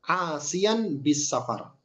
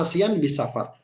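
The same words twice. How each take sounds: First: Drawn out, "safar" held long; slow term. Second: Repeated term. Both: Shown as a demonstration.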